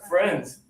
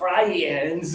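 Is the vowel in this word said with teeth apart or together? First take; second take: together; apart. First: The vowel is said with the teeth together. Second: The vowel is said with the teeth apart. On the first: The speaker calls it right. "it's just teeth together" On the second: The speaker calls it wrong. "It's not friends"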